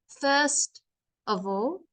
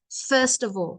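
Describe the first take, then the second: First: It is broken up with pauses. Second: It is said smoothly without pauses.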